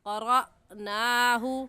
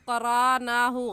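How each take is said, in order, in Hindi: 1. बीच में हल्का सा झटका या अटकाव है। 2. बीच का हिस्सा बिना किसी झटके के सहजता से बहता है। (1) "हमज़ा साकिन पर झटका देकर पढ़ते हैं" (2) "गलत है"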